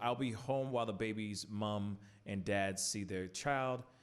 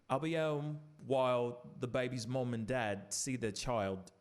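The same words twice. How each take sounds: First: It is read in the speaker's normal accent. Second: It is read in a weak put-on British accent.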